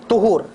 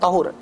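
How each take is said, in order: First: The first vowel is a rounded 'u' sound. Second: The first vowel is an open 'a' sound. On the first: The speaker calls it right. "dibaca dengan tuhur" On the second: The speaker calls it wrong. "tak dibacakan dengan tahur"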